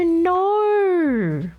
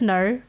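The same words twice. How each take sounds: First: The word is drawn out with an exaggerated accent. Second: The word is said plainly, with a mild accent. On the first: The speaker calls it wrong. "some people like to emphasize" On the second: The speaker calls it right. "it's just no"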